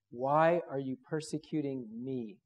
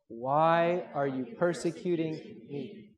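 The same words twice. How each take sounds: First: Said in the usual way. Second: Slow, drawn-out unison reading; group recitation. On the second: Shown as a demonstration. Preacher leads the congregation in saying it together, slow recitation. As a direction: say it slowly so everyone can join in. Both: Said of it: "Let's just say that together".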